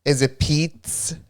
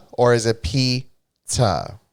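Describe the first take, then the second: First: Pizza said slowly as a question; first pizza variant. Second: Pizza drawn out very slowly; second pizza variant. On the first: To Chris, asking how pizza is said: slow questioning. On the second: To Chris, comparing pizza pronunciations: very slow. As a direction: stretch the word pizza, weighing it. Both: Shown as a demonstration. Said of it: "how are you supposed to say pizza".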